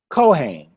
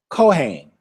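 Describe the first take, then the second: Both takes have the same delivery.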